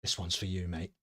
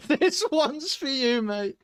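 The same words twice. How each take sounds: First: Low, soft aside; Borky. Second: High, loud, drawn-out put-on voice; Borky. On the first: Acted. Sideline official confiding in the player, low and soft. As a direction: drop it down low and quiet. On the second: Sideline official presenting the board to a player, high slow mock voice. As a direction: stretch it out, pitched right up.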